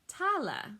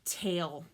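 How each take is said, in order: First: The final e is sounded as a vowel. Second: The final e is silent. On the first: This is the Middle English form. "In Middle English, that becomes tala. You always hear that middle E on the end" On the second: This is the modern English form. "like a story"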